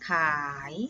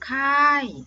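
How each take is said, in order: First: The syllable has a rising tone. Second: The syllable has a falling tone. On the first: "จัตวาขาย" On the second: "ไม้โทค่าย"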